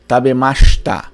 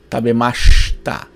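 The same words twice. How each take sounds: First: The i after sh is dropped. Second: The same.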